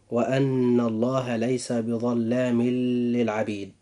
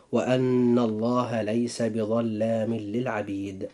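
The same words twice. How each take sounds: First: بظلام للعبيد read with the tanween n said clearly before the lam; wrong reading. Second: بظلام للعبيد merged with idgham, no nasal hum, lam doubled; slow recitation joining بظلام للعبيد into a doubled l; correct reading. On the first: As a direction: show the mistake by sounding the n of بظلام. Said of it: "قراءة هذه الآية من باب الخطأ هكذا". (قراءة خاطئة بإظهار تنوين بظلام قبل للعبيد) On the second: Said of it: "أما القراءة الصحيحة". (قراءة صحيحة بإدغام بغير غنة في بظلام للعبيد) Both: Shown as a demonstration.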